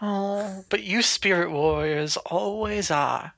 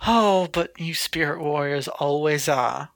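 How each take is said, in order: First: Put-on a slow, soft southern accent. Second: Put-on a slow, light southern accent. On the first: Mary re-taunting in her new southern accent. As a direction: draw it out southern and sly. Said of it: "she has a southern accent now". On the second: Mary taunting the spirit warrior in a southern accent. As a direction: drawl it like a southern villain. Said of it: "doing the southern accent for her".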